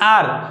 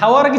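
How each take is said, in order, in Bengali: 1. শব্দটি স্বরধ্বনি দিয়ে শুরু হয়। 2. শব্দটি h ধ্বনি দিয়ে শুরু হয়। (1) "आर आ आ आ sound होछि" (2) "हावर पढंती हावर किछि नाही"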